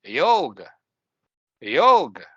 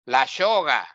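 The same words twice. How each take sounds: First: Yoga with a clear y as in yes; yoga, y like yes, never sh; correct yoga. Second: La yoga with y said like sh, la shoga; la yoga said la shoga, Argentine sh sound; mock Argentinian la yoga. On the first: Shown as a demonstration. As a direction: say yoga with a crisp English y. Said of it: "the real pronunciation is like this". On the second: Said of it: "No shoga".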